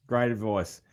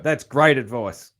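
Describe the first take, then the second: First: "Great advice" repeated softer, as a quiet afterthought; softer echo. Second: Said in the usual way. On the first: Real, not acted. Host softly echoing his praise of the guest's advice. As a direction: let "Great advice" fall away as a murmured echo.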